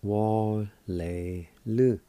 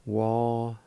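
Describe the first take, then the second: First: "Wa-le-lu" drawn out slowly, each syllable "Wa", "le", "lu" separated. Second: Said in the usual way. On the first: Shown as a demonstration. Teacher slowly models "Wa-le-lu" for students, syllable by syllable. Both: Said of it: "It's pronounced like this".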